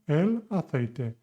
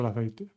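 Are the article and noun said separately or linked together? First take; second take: separately; linked. First: The article and noun are said as separate words. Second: The article runs straight into the noun. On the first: "So you see" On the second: "but you pronounce it"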